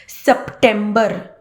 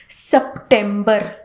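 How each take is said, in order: No difference in how they are said.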